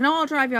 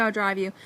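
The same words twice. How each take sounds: First: Insistent. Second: Said in the usual way. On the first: Retold or imitated. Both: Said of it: "he's like".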